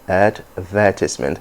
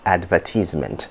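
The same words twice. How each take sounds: First: It is said with a standard stress pattern. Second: It is said with a Nigerian stress pattern. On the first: The speaker calls it right. "I go with the first one" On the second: The speaker calls it wrong. "Those two are Nigerian pronunciation"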